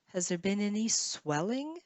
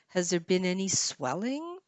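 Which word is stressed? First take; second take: swelling; swelling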